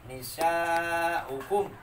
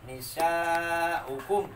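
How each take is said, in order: First: The u vowel is kept short. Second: The same.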